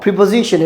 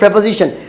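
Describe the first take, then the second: First: The first vowel sounds like 'ee'. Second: The first vowel sounds like 'e'. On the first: The speaker calls it wrong. "Not প্রিপোজিশন" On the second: The speaker calls it right. "এটা সঠিক উচ্চারণ প্রেপোজিশন"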